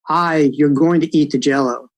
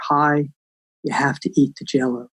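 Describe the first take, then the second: First: It is said in a stronger, firmer voice. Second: It is said in a kind, soft voice.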